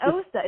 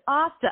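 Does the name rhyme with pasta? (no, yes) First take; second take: no; yes. First: The vowel does not rhyme with pasta. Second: The vowel rhymes with pasta. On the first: The speaker calls it wrong. "it's not Osta" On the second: The speaker calls it right. "Osta like pasta"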